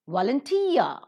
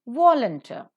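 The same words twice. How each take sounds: First: Volunteer with a long, raised -teer; volunteer, drawn-out accented -teer; stress on last syllable. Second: Volunteer said as VOL-un-ter, start loud; volunteer, strong first syllable, short weak ending; stress on first syllable. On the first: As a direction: shift the weight to the end of volunteer. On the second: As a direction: punch the start of volunteer, reduce the end. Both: Shown as a demonstration. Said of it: "The stress shifts".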